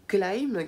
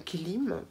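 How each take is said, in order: First: "Gleam" said as glaim, like the English word; "Gleam" with a long ai sound; first try at the name. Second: "Gleam" said as glim, with a short i; "Gleam" rhymes with French "crime"; corrected name. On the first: To her viewers, naming the brand "Gleam" the English way. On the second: To her viewers, correcting the brand name "Gleam" to glim. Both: Shown as a demonstration.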